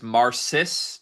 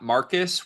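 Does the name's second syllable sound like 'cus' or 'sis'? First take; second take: sis; cus. First: The second syllable sounds like 'sis'. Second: The second syllable sounds like 'cus'. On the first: The speaker calls it right. "I believe his name is Marcis" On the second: The speaker calls it wrong. "not Marcus"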